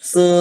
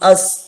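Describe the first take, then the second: First: The s is said alone with no vowel. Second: A short vowel is said before the s. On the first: The speaker calls it wrong. "അല്ലാതെ സീൻ സുക്കൂൻ സ് എന്ന് വായിക്കരുത്" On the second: The speaker calls it right. "എന്തെങ്കിലും ഒന്ന് മുമ്പിൽ നിങ്ങൾ വെച്ചു കൊടുക്കണം"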